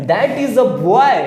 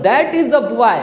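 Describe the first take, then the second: First: Very slow, word by word, as if for note-taking; slow classroom dictation read. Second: Said in the usual way. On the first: Shown as a demonstration. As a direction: spell out the sentence slowly for the class. Teacher dictating example sentence. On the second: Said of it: "मैं कह रहा हूँ".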